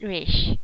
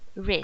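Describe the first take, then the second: First: The syllable ends with an sh sound. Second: The syllable ends with an s sound. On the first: The speaker calls it wrong. "not rish" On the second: The speaker calls it right.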